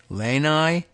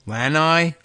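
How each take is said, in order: First: "Lanai" with a long a, as LAY-nigh; alternative pronunciation. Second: "Lanai" with a short a, as LAN-eye; guessed pronunciation. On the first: Host puzzling over a new word, "Lanai" tentatively as LAY-nigh. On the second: Host puzzling over a new word, "Lanai" tentatively as LAN-eye. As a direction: try out "Lanai" starting like the word "land". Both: Shown as a demonstration. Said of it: "I don't know how it's pronounced".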